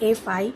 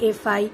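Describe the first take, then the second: No difference in how they are said.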